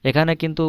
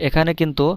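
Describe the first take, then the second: The two takes are said the same way.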